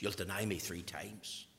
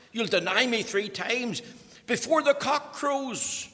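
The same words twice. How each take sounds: First: Hushed whisper. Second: Emphatic preaching. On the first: First telling, hushed. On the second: Jesus' words repeated with force. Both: Acted.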